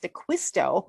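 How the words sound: The name has a Midwestern American pronunciation. "in Wisconsin, it's pronounced DeQuisto"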